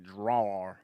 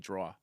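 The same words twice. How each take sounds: First: It is said in a Southern accent. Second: It is said in a Long Island accent.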